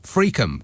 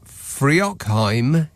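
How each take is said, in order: First: It is said like 'Freakham'. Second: It is said as spelled, like 'Free-ock-heim'.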